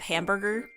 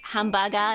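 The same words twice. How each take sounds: First: It is said with English pronunciation. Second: It is said with Japanese loanword pronunciation. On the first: It is the word as used in English. "instead of" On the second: It is the word as used in Japanese. "that is the way you're supposed to say it in Japanese"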